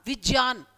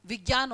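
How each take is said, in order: First: विज्ञान said as vij-nyaan, with ज and ञ, no g sound; teacher models विज्ञान as vij-nyaan; Sanskrit pronunciation. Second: विज्ञान said as vig-yaan, with a g sound, said low and soft; the everyday Hindi vig-yaan, marked as the wrong form; teacher shows विज्ञान as vig-yaan, the wrong way; Hindi pronunciation. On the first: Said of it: "Sanskrit में इसका उच्चारण विज्ञान था". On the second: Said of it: "pronunciation ... गलत हो गया". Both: Shown as a demonstration.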